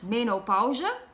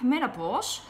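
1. Het woord wordt op de Nederlandse manier uitgesproken. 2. Het woord wordt op de Engelse manier uitgesproken. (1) "In Dutch it's pronounced menopauze" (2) "in English it's, I think, menopause"

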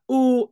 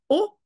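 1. La voyelle est longue. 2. La voyelle est courte. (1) "alors on entend un O long" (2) "et pas un O"

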